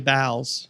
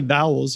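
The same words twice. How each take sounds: First: It is said in a Philly accent. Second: It is said in a standard American accent. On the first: "you say vowels" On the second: "you don't say vowels"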